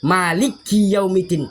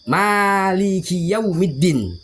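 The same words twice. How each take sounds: First: A consonant in 'maliki' is doubled. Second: The first vowel is long, with nothing doubled. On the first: The speaker calls it wrong. "Yang salah seperti ini" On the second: The speaker calls it right. "dia enggak ada tasdid dan enggak ada, dia cuma fathah berdiri"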